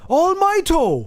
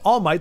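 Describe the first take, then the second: First: An extra 'o' vowel follows the final 't'. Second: The name ends on the final 't' sound. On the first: "they call him Almighto" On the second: "They don't call him All Might"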